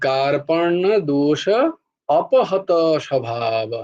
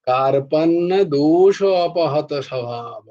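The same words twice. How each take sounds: First: The words are separated with short breaks. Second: The words are joined together without breaks. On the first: "এইভাবে ভেঙে ভেঙে উচ্চারণ করবি" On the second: "এবার ওইটা এক করে দিয়েছে"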